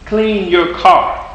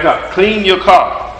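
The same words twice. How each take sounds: First: Even slower, drawn-out "Clean your car."; very slow insistent repeat. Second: Slow, drawn-out plea to clean your car; slow imploring request; slow mock plea. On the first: Retold or imitated. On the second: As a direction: stretch out the plea to God. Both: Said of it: "You're like".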